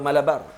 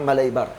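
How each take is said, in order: First: The second syllable has an ah sound. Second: The second syllable has an eye sound. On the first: The speaker calls it wrong. "atau Malabar" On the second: The speaker calls it right. "yang betulnya ... dia sebut Malaibar"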